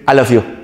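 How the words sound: It sounds forced out.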